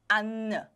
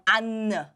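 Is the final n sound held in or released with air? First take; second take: released; released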